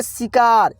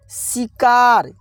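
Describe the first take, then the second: First: Said in the usual way. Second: शिकार stretched out very slowly, syllable by syllable; slowly drawn out. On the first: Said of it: "क्या पढ़ेंगे?". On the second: Shown as a demonstration. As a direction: draw out शिकार slowly, as if sounding it out for pupils. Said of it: "क्या होगा?". (शिकार को धीरे-धीरे खींचकर बोलें)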